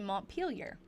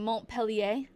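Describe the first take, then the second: First: The name is said with an English pronunciation. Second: The name is said with a French pronunciation. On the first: The speaker calls it right. "but it's actually Montpelier" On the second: The speaker calls it wrong. "like that would be how you say it in French"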